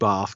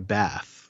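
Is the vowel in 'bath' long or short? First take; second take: long; short. First: The vowel is long, as in 'bar'. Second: The vowel is short, as in American English. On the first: "I'd say Bar" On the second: "That same ah as an American ah"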